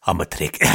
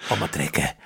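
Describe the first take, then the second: First: Lower, hammed-up South African "I'm a trekker"; mock South African Keith. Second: Low, soft South African "I'm a trekker"; mock South African Keith. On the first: Repeating friend's Keith line in a low South African accent. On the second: Echoing the Keith line again in a low South African voice.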